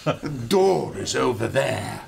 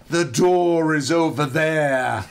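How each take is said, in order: First: Put-on crisp English-accented line. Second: Put-on slow, louder Irish-accented line. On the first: Corrected to an English woman pointing to the door, English accent. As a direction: redo it as a proper English woman. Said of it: "it wasn't Irish, it was English". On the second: Irish woman telling the intruder where the door is, Irish accent. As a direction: point the way in a lilting Irish accent. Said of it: "some Irish, I think she was Irish".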